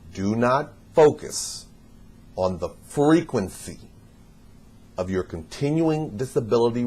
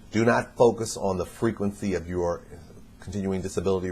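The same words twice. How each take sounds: First: It is spoken at a slower, deliberate pace. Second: It is spoken at a normal, quicker pace.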